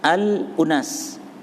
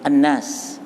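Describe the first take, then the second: First: It has a glottal stop before 'unas'. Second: It has a doubled n with no stop.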